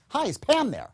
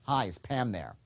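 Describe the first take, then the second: First: Much higher, bright and upbeat greeting; sharp as a tack, full of energy; upbeat enthusiastic. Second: Said in the usual way. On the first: Shown as a demonstration. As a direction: lift the whole line high and lively. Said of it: "the second one comes out upbeat, enthusiastic, sharp as a tack". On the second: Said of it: "watch, I say".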